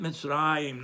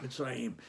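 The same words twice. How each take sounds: First: Mitzrayim with RA stressed; stress on next-to-last syllable. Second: Softer Mitzrayim with the final YIM stressed; stress on last syllable. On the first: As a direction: lean on the middle of Mitzrayim, mitz-RA-yim. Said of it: "emphasize the next to the last syllable". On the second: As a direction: quietly put the weight on the end of Mitzrayim, mitz-ra-YIM. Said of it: "not the last one". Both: Shown as a demonstration.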